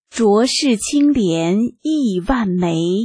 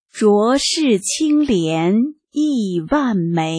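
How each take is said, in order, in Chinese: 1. 这一行是正常速度朗读的。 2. 这一行是放慢速度朗读的。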